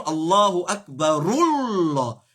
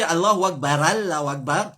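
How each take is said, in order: First: Slow "Akbarullah", joined by a long-held rul; liaison with u. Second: "Akbar Allahu" run together as akbara-llahu; liaison with a. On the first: Teacher showing the liaison, slow "Akbarullah" with u. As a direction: link "Akbarullah" slowly through a u. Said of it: "faire liaison". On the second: Teacher imitating what many people say, "Akbar" linked with a. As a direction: join "Akbar" to the next word with an a. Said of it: "beaucoup de monde dit". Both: Shown as a demonstration.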